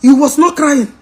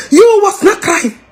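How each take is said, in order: First: Said in the usual way. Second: Higher, sobbing mock repeat of You was not crying. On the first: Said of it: "repeated with cry". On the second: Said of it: "cry heard".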